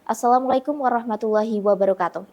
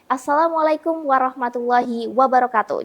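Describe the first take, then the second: First: It is spoken in a plain, full, round voice. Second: It is spoken with a cheerful, smiling voice. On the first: The focus is on serious news. "fokus ke berita karena dia suaranya bulat" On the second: The show is relaxed and cheerful. "Jadi kita smile. Itu namanya smiling voice"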